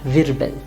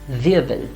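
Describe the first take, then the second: First: The R is sounded as a clear consonant. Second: The R becomes a soft vowel-like sound. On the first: The speaker calls it wrong. "and not Wirbel" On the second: The speaker calls it right. "we'll have it as Wirbel"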